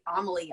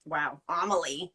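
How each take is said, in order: First: Said in the usual way. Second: Wow, Amélie said slowly with a French a-meh-LEE; French pronunciation. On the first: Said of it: "I just said that so". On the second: Shown as a demonstration. Savouring the French name of her favourite film. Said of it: "mon accent".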